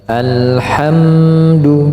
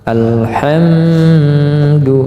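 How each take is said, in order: First: The M sound is held only briefly. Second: The M sound is held far too long. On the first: The speaker calls it right. "seperti itu" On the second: The speaker calls it wrong. "tidak boleh terlalu lama. Alhamdu, salah"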